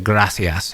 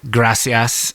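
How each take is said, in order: First: The c is said as a lisped th sound. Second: The c is said as a plain s sound. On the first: This is the Castilian way of saying it. "so you got to do that lisp" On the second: This is the Latin American way of saying it. "instead of saying like gracias"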